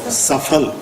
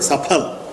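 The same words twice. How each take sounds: First: It is said in a North Indian accent. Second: It is said in a Sanskrit-style accent.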